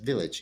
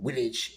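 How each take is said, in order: First: It is said in plain unaccented English. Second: It is said with a put-on foreign accent. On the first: The actress made no effort at a dialect. The speaker calls it wrong. "totally unaffected in her dialect" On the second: This is how the villagers should sound. The speaker calls it right. "They don't even pronounce it uh, with the correct"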